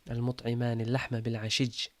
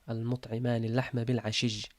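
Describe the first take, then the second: The two takes are said the same way.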